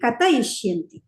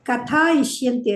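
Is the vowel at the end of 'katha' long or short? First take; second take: short; long. First: The vowel after 'kath' is short. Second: The vowel after 'kath' is long. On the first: The speaker calls it right. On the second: The speaker calls it wrong.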